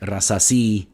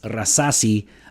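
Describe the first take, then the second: First: The stress is on the last syllable. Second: The stress is not on the last syllable. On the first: The speaker calls it wrong. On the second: The speaker calls it right.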